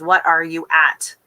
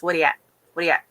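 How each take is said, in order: First: 'What are you at' word by word, slower; each word of 'What are you at' given separately and fully; spelled out. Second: Quick 'What are you at' slurred into 'whaddya at', Newfoundland style; Newfoundland dialect. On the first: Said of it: "Which is". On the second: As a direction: toss off the Newfoundland greeting as one word. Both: Shown as a demonstration.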